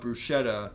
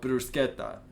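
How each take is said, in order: First: It is pronounced the American way. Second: It is pronounced a non-American way. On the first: This is how people in America say it. "in America people call it" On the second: This is how the speaker personally says it. "but I call it"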